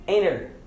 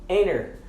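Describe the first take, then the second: The two takes are said the same way.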